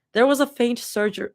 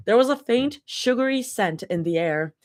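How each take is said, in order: First: "surger-" said like surgery, SUR-jer; "surger-" read as surgery by mistake; misreading. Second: "sugary" said SHUG-uh-ree, like sugar; "sugary" read right, sweet not surgery; corrected reading. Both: Real, not acted. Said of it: "not surgery".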